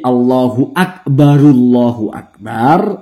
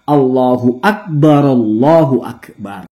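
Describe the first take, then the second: First: The r of Akbar takes an u vowel. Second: The r of Akbar takes an a vowel. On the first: "dibaca dommah" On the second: "dibaca fathah"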